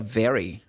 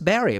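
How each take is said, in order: First: The word begins with a V sound. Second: The word begins with a B sound. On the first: "ele não fala very" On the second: "Porque o V em espanhol é B"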